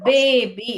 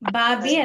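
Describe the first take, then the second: First: The first vowel is an 'ay' sound. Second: The first vowel is an open 'ah' sound. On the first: The speaker calls it right. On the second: The speaker calls it wrong. "ಬಾಬಿ ಅಲ್ಲ"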